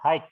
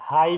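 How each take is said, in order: First: The word ends with a k sound. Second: The word ends on an open vowel, no k. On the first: The speaker calls it wrong. "not hike ya" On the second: The speaker calls it right. "high sense ya"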